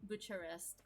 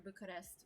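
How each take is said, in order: First: Bucharest said with a CH, like Butcher-est. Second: Bucharest said with a hard K, like Boo-ka-rest. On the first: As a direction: say Bucharest with "ch" as in church. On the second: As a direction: say Bucharest with "k" instead of "ch". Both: Shown as a demonstration. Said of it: "whichever you, um, pronounce it as".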